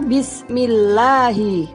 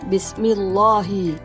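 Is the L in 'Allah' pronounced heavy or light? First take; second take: light; heavy. First: The L is thin, with a bright A-like vowel. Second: The L is thick, with a dark O-like vowel. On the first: The speaker calls it right. "Yang betul membacanya Bismillahi" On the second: The speaker calls it wrong. "bukan Bismillahi"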